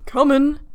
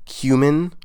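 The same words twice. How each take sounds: First: Cumin as KUH-min, short u; Cumin with the first syllable KUH; cumin said cuh-min. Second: Cumin as KYOO-min, long u; Cumin with the first syllable KYOO. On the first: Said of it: "pronounced that word correctly". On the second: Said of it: "Then how would you pronounce it?". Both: Shown as a demonstration.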